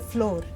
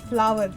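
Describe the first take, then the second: First: The word rhymes with door, one syllable. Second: The word rhymes with power, two syllables. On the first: The speaker calls it wrong. "then she correct me" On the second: The speaker calls it right. "it is flower, not floor"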